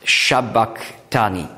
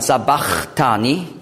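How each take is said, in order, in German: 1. Das Wort beginnt mit einem sh-Laut. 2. Das Wort beginnt mit einem einfachen s-Laut. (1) "Und auf Aramäisch ist es ein Q. Also Shabachthani" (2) "viele sagen Sabachthani"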